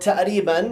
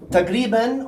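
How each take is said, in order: First: The middle consonant is a glottal stop. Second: The middle consonant is a deep back q. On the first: It sounds everyday and colloquial. "sometimes we don't pronounce the qaf" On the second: It sounds formal, like reading aloud. "if you pronounce the qaf, it becomes, it's fusha"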